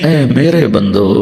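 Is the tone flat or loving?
loving. It is said in a warm, loving tone. The speaker calls it right.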